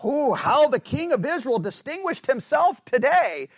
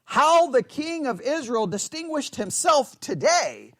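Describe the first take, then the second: First: Mocking sarcasm, higher pitch; scornful mock compliment; sarcastic. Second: Slow, mocking sarcasm, pitch lifted; mocking praise; sarcastic. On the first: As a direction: sneer it as fake praise. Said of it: "it's sarcastic". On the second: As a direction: drip with scorn at the king. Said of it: "Or sarcasm".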